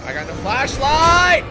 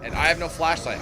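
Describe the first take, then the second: First: Louder, higher, slow exasperated repeat; fed-up cry of complaint; frustrated outburst. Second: Said in the usual way. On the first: Real, not acted. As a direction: stretch it out in exasperation.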